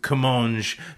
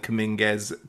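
First: The name ends with a soft g sound. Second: The name ends with a hard g and s. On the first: The speaker calls it right. "so we're going to go with it" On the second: The speaker calls it wrong. "I was firmly in the Cominguez camp"

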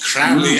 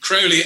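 First: The first vowel sounds like 'ow', rhyming with foully. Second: The first vowel sounds like 'oh', rhyming with holy. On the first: The speaker calls it wrong. "not Crowley as in foully" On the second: The speaker calls it right. "as in holy"

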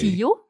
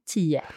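First: The word ends with a clear O sound. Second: The word ends with an E-like sound. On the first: It is the careful form. "when I speak correctly" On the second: It is the quick casual form. "when I speak quickly"

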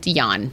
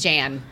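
First: The name begins with a Y sound. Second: The name begins with a J sound. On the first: The speaker calls it right. "his name is pronounced Jan" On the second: The speaker calls it wrong. "It's not Jan"

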